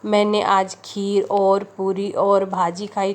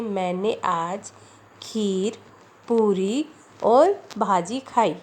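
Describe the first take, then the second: First: Unbroken list from मैंने आज to खाई; no comma pauses. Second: Slow reading, clear break after खीर, then पूरी और भाजी; comma pauses in a list. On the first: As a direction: run खीर और पूरी और भाजी together without a break. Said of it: "अल्प विराम का यूज़ ना करते". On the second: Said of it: "यहाँ खीर के बाद लगी हुई है". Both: Shown as a demonstration.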